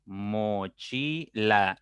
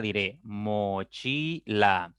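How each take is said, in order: First: Very slow, syllable by syllable; split into syllables. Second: Plain. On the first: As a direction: mochila broken into mo-chi-la, each beat separate. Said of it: "pronuncio pausadamente cada sílaba". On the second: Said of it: "Si yo pronuncio esta palabra". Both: Shown as a demonstration.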